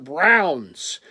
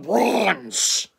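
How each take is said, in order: First: The vowel is a full 'ow' sound. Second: The vowel sounds like an 'aw' sound. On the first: The speaker calls it right. "we can pronounce your football team's name a little better than you" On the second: The speaker calls it wrong. "not the Bronze"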